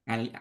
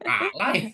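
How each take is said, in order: First: The word ends with an 'ee' sound. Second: The word ends with an 'eye' sound. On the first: The speaker calls it right. "Ali bukan alay" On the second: The speaker calls it wrong. "Bukan alay itu Ali"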